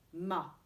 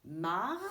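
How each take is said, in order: First: "ma" ends on an open a with no r; teacher contrasting ma with mar, no r. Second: "Mar" said loud with the final r clearly heard; teacher contrasting mar with ma, r sounded. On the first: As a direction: let "ma" stop cleanly on the a. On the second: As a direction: lean on the r at the end of "Mar". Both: Shown as a demonstration. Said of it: "Cherchez la différence".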